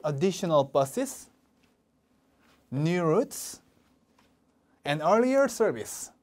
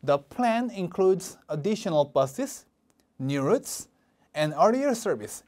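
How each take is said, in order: First: "buses" and "routes" rising, "service" falling; slow, rise on each comma, fall on the last item; rising list intonation. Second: "buses" and "routes" rising, "service" falling at the end; rise, rise, then fall on "earlier service"; rising list intonation. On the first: Teacher repeating the list for students to echo, rise rise fall. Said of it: "하나씩 따라해 보실게요". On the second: Teacher showing list intonation to students, rise rise fall. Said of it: "올리고 올리고 내리는 거". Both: Shown as a demonstration.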